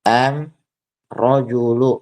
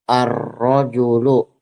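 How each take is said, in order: First: The article begins with an m sound. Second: The article begins with an r sound. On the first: This is the Himyar dialect form. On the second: This is the standard literary form.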